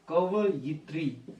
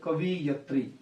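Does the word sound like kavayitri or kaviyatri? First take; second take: kavayitri; kaviyatri. First: The i vowel comes after the y. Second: The i vowel comes after the v. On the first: The speaker calls it right. "ये होता है ठीक वाला कवयित्री" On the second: The speaker calls it wrong. "हम उच्चारण ही गलत बोलते हैं। जैसे हम बोलते हैं कवियत्री"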